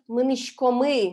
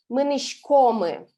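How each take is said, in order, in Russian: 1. Ударение в глаголе падает на последний слог. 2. Ударение в глаголе падает на предпоследний слог. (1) "литературный вариант" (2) "не с ударением на последний слог, а на предпоследний"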